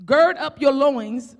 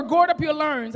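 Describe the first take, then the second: First: Said in the usual way. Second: Country accent on "gird up your loins"; "gird" and "loins" with rounded, r-coloured country vowels. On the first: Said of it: "I think I got the g". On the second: Real, not acted. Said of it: "that's my country accent".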